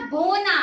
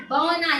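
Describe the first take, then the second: First: "बोना" with a pure round o; careful model of "बोना" with the ओ sound; long o vowel. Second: "बौना" with an open au glide; careful model of "बौना" with the औ sound; gliding au vowel. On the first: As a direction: hold a steady o in "बोना", then na. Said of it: "ब में ओ की मात्रा". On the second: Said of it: "ब में औ की मात्रा". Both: Shown as a demonstration.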